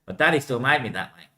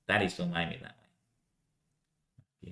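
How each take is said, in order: First: Said in the usual way. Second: Much softer, lower echo of the line; quiet repeat. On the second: Acted. Repeating the line to himself, quietly. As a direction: drop it to a murmur.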